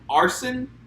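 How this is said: The name is said with an English pronunciation. The speaker calls it wrong. "they call him Arson"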